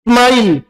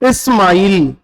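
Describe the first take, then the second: First: The word starts directly with the s sound. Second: An extra vowel comes before the s sound. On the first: The speaker calls it right. "जब भी किसी शब्द के शुरुआत में आधा से आता है ... कैसे बोलोगे" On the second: The speaker calls it wrong. "शुरू में अगर आप इसको इस बोलोगे ... गलत है"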